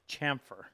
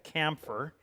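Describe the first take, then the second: First: The word begins with a 'ch' sound. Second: The word begins with a hard 'k' sound. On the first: The speaker calls it right. "it is pronounced ch chamfer" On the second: The speaker calls it wrong. "People still call this a camphor"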